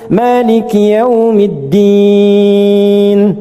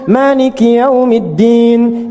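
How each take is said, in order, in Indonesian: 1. Vokal akhir ditahan sekitar tiga detik. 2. Vokal akhir ditahan sekitar satu detik. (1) "Enam harakat" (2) "Atau boleh dibaca satu detik, dua harakat. Untuk bacaan cepat"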